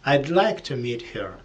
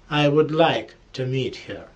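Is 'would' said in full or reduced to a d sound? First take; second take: reduced; full. First: The word 'would' shrinks to a d sound. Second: The word 'would' is said in full.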